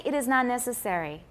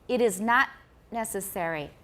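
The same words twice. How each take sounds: First: There is no stop after 'not'. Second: There is a long stop after 'not'. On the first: The speaker calls it wrong. "don't say" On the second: The speaker calls it right. "Was there a long pause there?"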